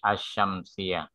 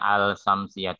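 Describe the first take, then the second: First: No L sound; the sh sound is doubled. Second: An L sound is heard before the s. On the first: The speaker calls it right. "tapi Asyamsiah" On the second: The speaker calls it wrong. "nggak ada yang Al-Samsiah"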